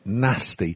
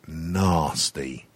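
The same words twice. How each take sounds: First: It is said in a northern English accent. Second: It is said in a southern English accent.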